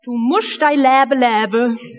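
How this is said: It is said in a Swabian dialect. "So ungefähr klingt ein schwäbisches Sprichwort"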